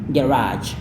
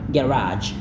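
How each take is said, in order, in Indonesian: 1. Diucapkan dengan aksen Amerika. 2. Diucapkan dengan aksen Amerika.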